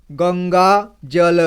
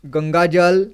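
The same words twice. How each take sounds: First: Ganga जल read slowly, joining one syllable at a time. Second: Said in the usual way. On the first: Shown as a demonstration. Teacher showing pupils how to join syllables, slow careful reading. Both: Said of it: "एक एक जोड़ करके इसी तरह से पढ़ना है".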